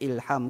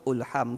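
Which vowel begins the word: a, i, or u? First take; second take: i; u. First: The word begins with an i vowel. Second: The word begins with a u vowel. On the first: "kalau orang yang tak tahu, dia akan macam ilham ke" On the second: "ulham ke"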